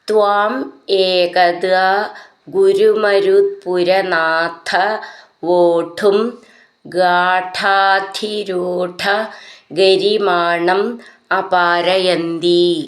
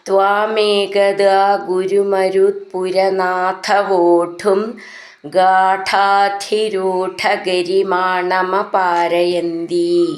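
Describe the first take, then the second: First: The words are said separately with small breaks. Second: The words are joined and run smoothly together.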